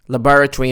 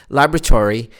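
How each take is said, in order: First: It is said with a British pronunciation. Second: It is said with an American pronunciation. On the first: "laboratory in British" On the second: "and laboratory in American"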